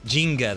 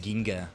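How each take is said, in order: First: The word begins with a J sound. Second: The word begins with a hard G sound. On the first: The speaker calls it right. "The first G is different. Is it Jinga?" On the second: The speaker calls it wrong. "I say Ginga because it sounds like the word for galaxy in Japanese"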